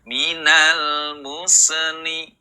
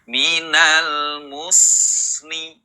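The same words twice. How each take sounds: First: An extra e vowel follows the s. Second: The s flows on with no added vowel. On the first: The speaker calls it wrong. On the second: The speaker calls it right.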